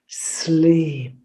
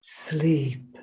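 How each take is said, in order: First: Whispered, hissing sleep; hissed whisper. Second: Very soft voiced sleep; faint hiss. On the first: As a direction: lull him with a whispered sleep. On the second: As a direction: let the sleep die away. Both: A narrator's reading. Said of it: "she hissed".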